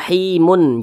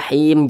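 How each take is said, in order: First: The word ends with an added 'un' ending. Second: The word ends on a bare, stopped m. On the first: The speaker calls it wrong. "jangan dibaca rahimun, jangan" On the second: The speaker calls it right. "Ini kan kita baca rahim"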